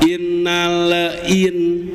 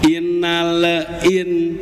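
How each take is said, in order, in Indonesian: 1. Huruf L dilepas dengan sedikit gema di awal. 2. Huruf L dilepas dengan sedikit gema di awal.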